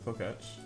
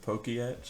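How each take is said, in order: First: It is said with one vowel before the 'tch'. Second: It is said with an extra vowel before 'tch'. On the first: The speaker calls it right. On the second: The speaker calls it wrong.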